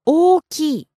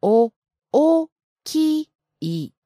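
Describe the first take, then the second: First: 大きい with a held first vowel, raised higher on きい; accented pronunciation. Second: 大きい very slowly, sound by sound; broken down slowly. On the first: Sensei models the word with the accent, 大きい clearly accented. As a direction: say 大きい with its long o and pitch accent. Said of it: "Can you say it, uh, with the accent". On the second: Teacher asks for it slower, 大きい broken down syllable by syllable. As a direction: split 大きい into drawn-out beats, お, お, き, い. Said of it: "Can you break it down even slower?". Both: Shown as a demonstration.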